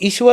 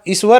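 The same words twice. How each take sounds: First: The name is said in standard pronunciation. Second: The name is said in Haryanvi village pronunciation. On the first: This is not how people in the village say it. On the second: This is how people in the village say it.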